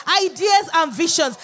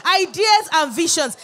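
The two takes are said the same way.

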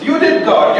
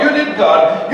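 First: High whiny accusation, you did God; mock complaint. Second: Said in the usual way. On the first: Preacher mimics people blaming God, high whiny. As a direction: squeal the blame at God.

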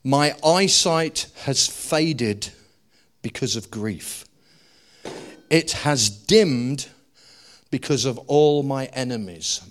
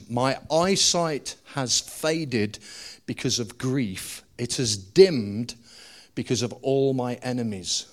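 First: Slow, weighty reading of the verse; slow scripture reading. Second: Slow emphatic repeat. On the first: Preacher reading David's lament slowly to the church. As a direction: read it out slowly, letting each phrase sink in. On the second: Preacher repeating the verse slowly for emphasis. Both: Shown as a demonstration. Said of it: "Watch what he says".

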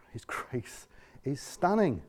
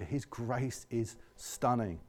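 First: Slow, soft and tender; soft reverent refrain; hushed refrain. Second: Slow, soft and hushed; soft awed refrain. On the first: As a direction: linger on stunning quietly. Same refrain again. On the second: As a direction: let the words sink in quietly. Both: Real, not acted.

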